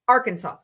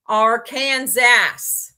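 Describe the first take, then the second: First: Arkansas said as "AR-kən-saw"; correct Arkansas, silent S. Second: Arkansas drawn out loudly as "ar-KAN-zass"; loud, slow "ar-KAN-zass" for Arkansas; mispronounced Arkansas. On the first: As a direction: stress first and last syllables of Arkansas, ending in "saw". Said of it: "with the final S silent". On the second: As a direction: slowly hammer out Arkansas like "are Kansas", final S sounded. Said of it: "I mispronounced my state's name". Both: Shown as a demonstration.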